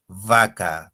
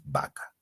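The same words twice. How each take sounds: First: "vaca" with a long buzzing v, lip on teeth; true labiodental V. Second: Said in the usual way. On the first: Shown as a demonstration. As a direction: overdo the v at the start of "vaca". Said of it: "porque tú no dices vaca". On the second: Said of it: "dices vaca".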